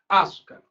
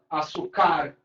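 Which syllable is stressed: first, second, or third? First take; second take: first; third. First: The stress is on the first syllable. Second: The stress is on the third syllable. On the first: "será que a sílaba tônica é o A? Eu vou falar açúcar. Não é assim que a gente fala" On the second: "Será que a última? ... Ficou nada a ver"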